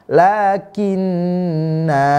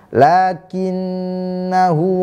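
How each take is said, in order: First: The final vowel is held long before a stop. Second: The final vowel is short, running into the next word. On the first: The reader stops after this word. "kalau kita waqaf maka na panjang, dibaca panjang dua harokat kira-kira. Lakinna, lakinna, ini kalau waqaf" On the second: The reader continues without stopping. "kalau wasol maka alifnya yang di atasnya ada nol lonjong tidak dibaca"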